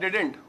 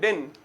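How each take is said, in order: First: It is said with two syllables, did-dent. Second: It is one syllable with the final t silent. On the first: "did not को मिला के क्या बोलते हैं हम लोग?" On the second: "डिंट का भी टी साइलेंट कर देते हैं"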